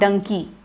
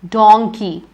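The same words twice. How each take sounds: First: Its first vowel matches monkey's vowel. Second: Its first vowel differs from monkey's vowel. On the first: The speaker calls it wrong. "not donkey" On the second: The speaker calls it right.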